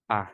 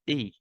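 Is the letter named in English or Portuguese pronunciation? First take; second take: Portuguese; English. First: The letter is named with Portuguese pronunciation. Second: The letter is named with English pronunciation. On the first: "in Portuguese we say A" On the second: "but in English A"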